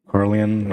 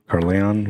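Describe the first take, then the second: First: Carleon ending in an unstressed "-ee-un"; first pronunciation attempt. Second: Carleon ending in a full "-on"; alternative pronunciation attempt. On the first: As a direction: say Carleon as "KAR-lee-un", slowly. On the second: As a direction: say Carleon as "KAR-lee-ON". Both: Real, not acted. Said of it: "or Carl-, Carleon".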